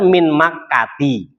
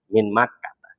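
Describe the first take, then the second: First: The name ends with an 'i' vowel. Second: The name ends with an 'a' vowel. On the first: The usual case ending after a preposition. "asalnya standar min makati" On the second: The special ending for this kind of noun. "karena dia ghairu munsharif bacanya min makkata"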